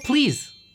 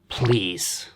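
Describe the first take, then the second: First: It is said warmly, with a smiling tone. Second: It is said in a cold, curt tone. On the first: It shares a feeling of kindly asking. The speaker calls it right. "if you say it with a smile" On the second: It comes across as rude or angry. The speaker calls it wrong. "If you say it in a cold way like"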